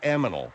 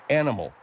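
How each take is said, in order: First: The n sound comes after the m sound. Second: The n sound comes before the m sound. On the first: The speaker calls it wrong. "Not aminal" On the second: The speaker calls it right. "N before M, Nancy before Mary"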